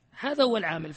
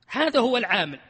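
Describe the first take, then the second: First: Said in the usual way. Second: هذا said louder with a falling tune; stress on هذا. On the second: Shown as a demonstration. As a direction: punch هذا, then let هو العامل fall. (تشديد على كلمة هذا بصوت أعلى ونغمة هابطة)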